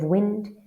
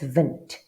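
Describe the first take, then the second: First: The word begins with a W sound. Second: The word begins with a V sound. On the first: "Instead of wind" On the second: "it's vint"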